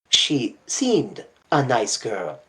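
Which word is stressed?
seemed. The stress is on the word seemed.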